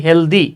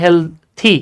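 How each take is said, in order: First: হেলদি said as Bangla speakers usually say it; wrong pronunciation. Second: হেলথি with a clear th sound; the right way to say হেলথি; correct pronunciation. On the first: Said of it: "হেলদি না, উচ্চারণ হচ্ছে হেলথি". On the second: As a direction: say হেলথি properly, with th. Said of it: "উচ্চারণ হচ্ছে হেলথি". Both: Shown as a demonstration.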